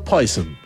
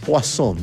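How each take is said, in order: First: The word is pronounced the English way. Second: The word is pronounced the French way. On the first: The speaker is using the plain name. The speaker calls it right. "no Poison" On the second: The speaker is putting on airs. The speaker calls it wrong. "la ciútica de la vendedora lo pronunciaba Poisson"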